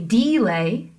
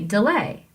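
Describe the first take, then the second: First: The stress is on the first syllable. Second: The stress is on the second syllable. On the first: The speaker calls it wrong. "You don't say delay" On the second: The speaker calls it right. "you say delay"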